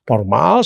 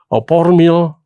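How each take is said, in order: First: The word ends with an -al sound. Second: The word ends with an -il sound. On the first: The speaker calls it right. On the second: The speaker calls it wrong.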